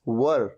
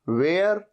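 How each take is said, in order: First: It is said with a short 'ur' vowel. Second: It is said with an 'air' vowel. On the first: The speaker calls it right. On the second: The speaker calls it wrong. "वेयर ऐसे नहीं"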